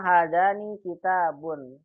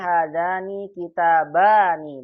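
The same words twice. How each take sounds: First: "hadzani kitabun" with the second word ending in "bun"; wrong singular ending. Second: "hadzani kitabani" with "baa" long before the final "ni"; correct dual ending. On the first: Teacher showing the mistake to avoid, mismatched "un" ending. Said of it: "Tidak boleh kita bilang". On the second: Teacher modelling the dual form, emphatic long vowels. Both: Shown as a demonstration.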